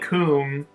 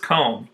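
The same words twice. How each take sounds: First: The vowel rhymes with the vowel in tomb. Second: The vowel does not rhyme with tomb. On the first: The speaker calls it wrong. "tomb is pronounced tomb, so you think comb" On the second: The speaker calls it right. "but it's comb"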